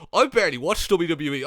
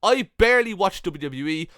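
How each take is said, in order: First: Sing-song mocking of a smug fan; mocking quote. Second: Said in the usual way. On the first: Mocking a smug fan who claims not to watch WWE. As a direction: mimic the smug commenter. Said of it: "when they're saying".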